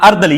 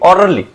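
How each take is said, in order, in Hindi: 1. यह छोटा करके, उर्दू के ढंग में ardali बोला गया है। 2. यह पूरे अंग्रेज़ी ढंग में orderly बोला गया है। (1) "उर्दू के अंदर ये लफ्ज मौरद हुआ है अर्दली" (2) "ये असल में ऑर्डरली"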